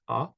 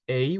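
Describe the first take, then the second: First: The vowel is said the French way. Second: The vowel is said the English way. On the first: The speaker calls it right. "we would pronounce it A" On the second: The speaker calls it wrong. "we wouldn't pronounce it A"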